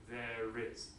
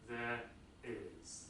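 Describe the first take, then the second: First: An R sound links the two words. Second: A glottal stop separates the two words. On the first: "we add an R in between" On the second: "you need to uh, put a, a, a glottal stop in between"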